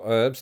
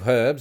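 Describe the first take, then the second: First: The word starts with no h sound. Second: The word starts with an audible h sound.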